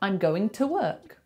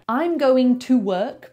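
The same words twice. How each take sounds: First: The word 'to' is reduced to a bare 't'. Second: The word 'to' has a full vowel.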